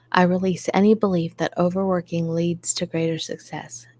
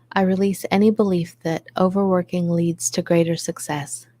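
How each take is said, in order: No difference in how they are said.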